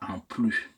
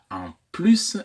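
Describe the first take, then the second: First: The final S of plus is silent. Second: The final S of plus is pronounced. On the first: The speaker calls it wrong. "et non pas" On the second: The speaker calls it right. "on dit bien"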